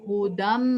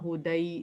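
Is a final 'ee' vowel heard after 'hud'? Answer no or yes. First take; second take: no; yes. First: The word ends in 'm' with no 'ee' vowel. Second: The word ends with a sounded 'ee' vowel. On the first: The speaker calls it right. "ऐसे ये बनेगा" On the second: The speaker calls it wrong. "वैसे तो ये अगर अगर पढ़ना चाहे तो ये होगा हुदई"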